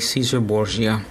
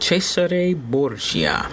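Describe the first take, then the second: First: The name gets a plain English pronunciation. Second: The name gets its original, non-English pronunciation. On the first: This is the casual form English speakers use. "we just say Caesar Borgia. You know, we're English speaking" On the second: This is the technically correct form of the name. "technically it's pronounced Cesare Borgia"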